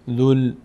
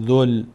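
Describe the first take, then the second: First: The word ends with an l sound. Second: The word ends with an l sound.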